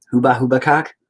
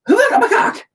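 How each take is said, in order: First: Said in the usual way. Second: High, loud video game battle cry; squeaky arcade attack shout. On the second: Acted. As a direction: shriek it like a nineties game character attacking.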